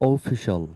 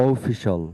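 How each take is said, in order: No difference in how they are said.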